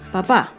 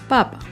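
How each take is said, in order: First: The stress is on the last syllable. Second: The stress is on the first syllable. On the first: It refers to a family member, the father. "que indica que el acento está en la última sílaba" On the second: It refers to the food, the potato. "no tiene tilde y el acento está en la primera sílaba"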